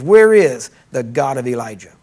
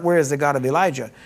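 First: Loud cry. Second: Said in the usual way. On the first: Retold or imitated. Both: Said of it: "what we should be yelling today is not".

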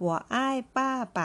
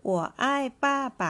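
First: Said in the usual way. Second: 我爱爸爸 very slow, higher and louder; slow model sentence. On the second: Shown as a demonstration. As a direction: stretch out 我爱爸爸 as a teaching model. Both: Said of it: "ไปดูตัวอย่างประโยคกันนะคะ".

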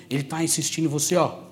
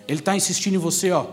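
The two takes are said the same way.

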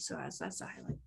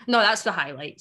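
First: Much softer throwaway repeat; self-mocking quiet aside; muttered aside. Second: Said in the usual way. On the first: Real, not acted. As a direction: drop it under your breath.

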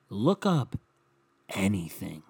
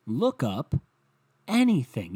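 First: Said in the usual way. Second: Exasperated. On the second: Acted. Repeats line louder, higher.

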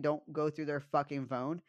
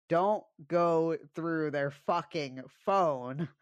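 First: Said in the usual way. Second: Very slow, louder, word by word; dead-serious warning. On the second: Real, not acted. Warning listeners from her own experience, slow and emphatic. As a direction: drive each word home slowly, pitched up. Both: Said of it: "I'm so fucking serious".

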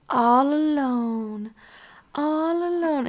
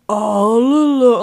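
First: Chanted, slow, high, eerie singsong; eerie child chant. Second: Slow, loud, warped demon cry; distorted demonic voice. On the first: Chanted, retelling the ghost girl in the movie, slow eerie singsong. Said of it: "and she goes". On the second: Retelling the girl's voice turning demonic, loud and warped. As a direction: let the voice tear into something demonic. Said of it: "Her voice gets so distorted". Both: Retold or imitated.

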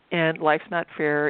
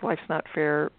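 First: "life's not fair" said slowly, each word leaned on; slow emphatic repeat. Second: Said in the usual way. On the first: Retold or imitated. Repeats the lesson to herself.

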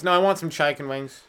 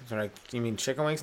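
First: "chicken" said "CHYE-ken"; a billionaire ordering "CHYE-ken wings". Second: Said in the usual way. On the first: Acted. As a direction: turn the i in "chicken" into "eye". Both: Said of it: "pronouncing shit weird places".

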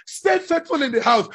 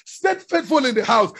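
The two takes are said the same way.

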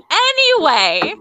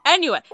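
First: Loud, high, drawn-out "Anyway"; emphatic anyway. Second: Said in the usual way. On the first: Real, not acted. Host dragging friends back to the story, loudly insistent. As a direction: stretch it out and override the chatter. Host repeats to override the interruption.

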